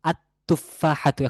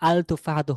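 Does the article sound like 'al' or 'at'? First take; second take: at; al. First: The L blends into a doubled T sound. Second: The L is clearly pronounced before the T. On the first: The speaker calls it right. "সেক্ষেত্রে বলতে হবে আত তুফাহাতু" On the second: The speaker calls it wrong. "আল তুফাহাতু হয় নাই, কারণ লামটি এখানে উচ্চারণে আসবে না"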